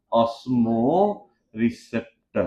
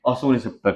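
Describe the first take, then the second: First: osmo receptor stretched out slowly, stress on osmo; slow dictation. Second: Said in the usual way. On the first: Shown as a demonstration. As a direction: spell out osmo receptor for the class to write. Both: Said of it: "लिख देता हूँ मैं osmo receptor".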